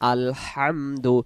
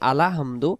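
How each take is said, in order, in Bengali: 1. l সরাসরি hamdu-র সঙ্গে মিশে যায়। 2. l-এর পরে একটি a স্বরধ্বনি যোগ হয়। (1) "উচ্চারণ আলহামদু" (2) "তখন লামে জবর চলে আসবে"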